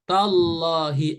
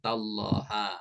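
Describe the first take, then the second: First: The word ends with an i vowel. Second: The word ends with an a vowel. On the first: The speaker calls it right. "huruf H berharokat kasroh" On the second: The speaker calls it wrong. "nggak boleh"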